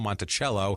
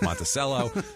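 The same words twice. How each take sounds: First: The name is said the standard way. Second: The name is said the local Florida way. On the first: It names the original home. The speaker calls it right. "Thomas Jefferson's home, Monticello" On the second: It names the Florida city. The speaker calls it wrong. "they can't pronounce it properly, and it's Monticello"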